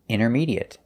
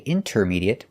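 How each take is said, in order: First: The T after the N is silent. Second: The T after the N is pronounced. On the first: The speaker calls it right. "We notice that the T is silent" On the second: The speaker calls it wrong. "We don't say intermediate"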